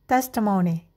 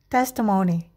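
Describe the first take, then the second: The two takes are said the same way.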